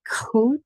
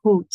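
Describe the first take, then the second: First: "goed" starting with a hard K sound. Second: "Goed" with G like clearing the throat; gurgly G. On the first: Teacher showing others' version of "goed", K-like G. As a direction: turn the G of "goed" into a K. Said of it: "they make it more sound like a K". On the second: Teacher showing the Dutch G in "Goed", gurgly. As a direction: start "Goed" on a throaty, scraped fricative. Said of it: "It's a more of a gurgly thing". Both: Shown as a demonstration.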